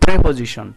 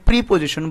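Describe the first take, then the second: First: The first vowel sounds like 'eh'. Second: The first vowel sounds like 'ee'. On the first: The speaker calls it right. "এটার pronunciation হচ্ছে প্রেপোজিশন" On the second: The speaker calls it wrong. "এটার উচ্চারণ অনেকে প্রিপোজিশন বলে"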